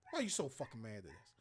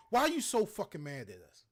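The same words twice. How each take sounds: First: Much softer, quicker muttered repeat; quiet fast repeat. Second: Said in the usual way. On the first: Real, not acted. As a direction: drop the voice and rush it under the breath.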